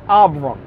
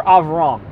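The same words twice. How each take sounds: First: "Avram" said as "Ahb-ruh", b sound, low falling; "Avram" spoken like "Abra"; Hebrew name said with a b. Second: "Avram" said as "Ahv-rahm", clear v, low and falling; "Avram" corrected to a crisp v sound; "Avram" said slowly with a v; Hebrew name with a v. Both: Shown as a demonstration. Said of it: "or Avram".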